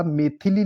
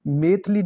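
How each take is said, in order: First: Said in the usual way. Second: मैथिली cut to two syllables, "maith-li"; mispronounced मैथिली. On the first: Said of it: "मैथिली लिखा जाएगा". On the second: Shown as a demonstration. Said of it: "मैथिली नहीं होता".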